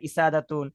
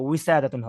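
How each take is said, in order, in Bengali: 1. শব্দটি একটি সাধারণ স্বরধ্বনি দিয়ে শুরু। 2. শব্দটি w ধ্বনি দিয়ে শুরু। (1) "ইসাদাতুন যেন না হয়" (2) "ওটা উইসাদাতুন হবে"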